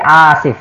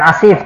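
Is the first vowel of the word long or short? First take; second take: long; short. First: The first vowel is long. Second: The first vowel is short. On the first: The speaker calls it right. "Jadi panjang ala wazni fa'ilun" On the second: The speaker calls it wrong. "Jadi bukan asif"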